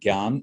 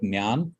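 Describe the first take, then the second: First: No N sound follows the first consonant. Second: An N sound follows the first consonant. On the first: "some call it Gyan" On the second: "Some call it Jnan with the N"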